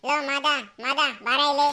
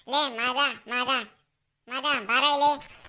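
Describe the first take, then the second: First: Shouting out. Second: Calling out. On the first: Calling friend again louder. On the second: Calling friend from afar. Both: Acted.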